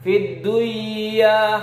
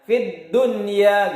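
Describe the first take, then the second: First: The n sound is merged into the y. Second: The n sound is kept before the y. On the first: The speaker calls it wrong. "Kenapa dunia itu tidak dibaca duya?" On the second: The speaker calls it right. "Kalau kita membacanya mungkin setiap hari kan kita tahu ya"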